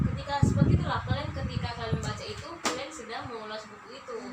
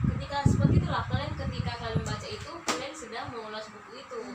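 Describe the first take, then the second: The two takes are said the same way.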